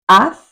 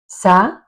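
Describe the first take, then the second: First: It begins with a soft th sound. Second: It begins with a hissing s sound. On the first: This is how it is said in Spain. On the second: This is how it is said in parts of America and the Canaries.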